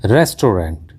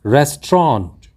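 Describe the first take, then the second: First: रेस्टोरेंट said as "res-to-rent"; common mispronunciation. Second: रेस्टोरेंट said as "res-tront", two syllables; correct pronunciation. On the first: Teacher shows learners the common mistake, mispronounced. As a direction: say रेस्टोरेंट in three syllables ending "rent". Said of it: "हम इसका उच्चारण कर देते हैं". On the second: Teacher gives learners the correct word, carefully pronounced. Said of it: "इसका सही उच्चारण होता है". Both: Shown as a demonstration.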